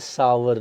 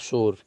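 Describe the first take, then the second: First: It is said with two syllables, like 'sow-er'. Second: It is said with one syllable, like 'sore'. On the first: The speaker calls it right. "Grapes are सावर" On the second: The speaker calls it wrong. "Not सोर"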